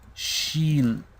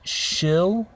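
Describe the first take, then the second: First: The vowel is a clear ee sound. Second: The vowel is not an ee sound. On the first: The speaker calls it right. "we want the E sound" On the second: The speaker calls it wrong. "It's not shill. Okay, this is incorrect"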